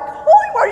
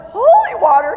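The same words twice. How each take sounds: First: Even higher, laughing as the question repeats; stunned and amused, push it up; laughing disbelief. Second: Higher, louder disbelieving question; can't believe what you're seeing; incredulous. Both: Retold or imitated. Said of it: "I'm like".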